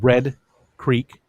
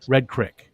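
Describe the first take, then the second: First: The vowel in Creek sounds like 'ee'. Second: The vowel in Creek sounds like short 'i'. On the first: This is how the name is spelled. "It's it's spelled Red Creek" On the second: This is how locals actually say the name. "but it's Red Creek"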